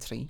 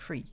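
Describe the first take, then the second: First: The word begins with a t sound. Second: The word begins with a th sound. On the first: "almost like a T" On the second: "a T H sound"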